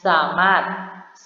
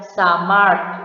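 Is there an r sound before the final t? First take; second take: no; yes. First: No r sound comes before the final t. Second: An r sound comes before the final t. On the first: The speaker calls it right. "melainkan hanya samat" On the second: The speaker calls it wrong. "tidak dibaca samart dengan bunyi R lalu bunyi T"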